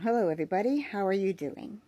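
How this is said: The voice is at its natural pitch. "This is my natural tone"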